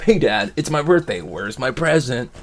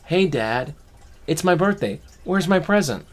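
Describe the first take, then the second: First: Loud, higher, playful birthday ask, slowing at the end; chatty and cheerful. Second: Put-on high, loud cheeky kid demanding a gift; cheeky kid joke. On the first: Retold or imitated. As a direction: chat Dad up like a happy kid. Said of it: "chatting it up". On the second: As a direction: tease Dad like a bratty child. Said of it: "I think I'll be funny".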